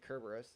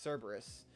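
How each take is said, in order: First: The word begins with a hard k sound. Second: The word begins with a soft s sound. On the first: "the computer always pronounces it Kerberos" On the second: "I think is actually supposed to be uh, pronounced Cerberus"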